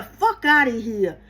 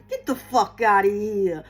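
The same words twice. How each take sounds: First: FUCK OUT OF HERE drawn out slowly, New Jersey Italian style; emphatic New Jersey Italian accent. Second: Low-pitched New Jersey Italian accent. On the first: Telling off bullshit when it shows up, FUCK OUT OF HERE slow and emphatic. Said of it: "Add emphasis to it". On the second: Reader giving viewers their mantra, New Jersey Italian accent. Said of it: "Say it in a New Jersey Italian accent". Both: Shown as a demonstration.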